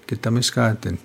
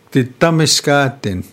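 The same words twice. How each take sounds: First: Calm repeat of Kitamiskatin; Cree pronunciation. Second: Kitamiskatin pitched high and loud as ki-TA-mis-ka-tin, falling; first full model of Kitamiskatin; teaching a new Cree word; Cree pronunciation. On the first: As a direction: settle the word after modelling it. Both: Shown as a demonstration. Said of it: "teaching me three words in Cree".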